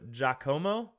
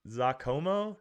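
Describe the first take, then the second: First: The name begins with a j sound. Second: The name begins with a z sound. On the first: The speaker calls it right. "like Jacques. So Giacomo" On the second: The speaker calls it wrong. "Not za"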